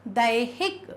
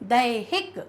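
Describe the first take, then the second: The two takes are said the same way.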